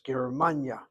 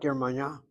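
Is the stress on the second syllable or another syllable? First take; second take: second syllable; another syllable. First: The stress is on the second syllable. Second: The stress is not on the second syllable. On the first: The speaker calls it right. "hit the second of the three syllables" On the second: The speaker calls it wrong. "not Germania"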